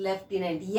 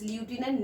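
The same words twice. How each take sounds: First: Lieutenant as "lef-tenant", slowly; correct pronunciation. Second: Lieutenant as "lyoo-tenant", softer; wrong pronunciation. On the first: Teacher corrects what learners read, correct pronunciation. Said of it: "this is lieutenant". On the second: Teacher voices what learners read in their minds, wrong pronunciation. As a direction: say lieutenant as spelt, starting "lyoo". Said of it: "No, exactly". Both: Shown as a demonstration.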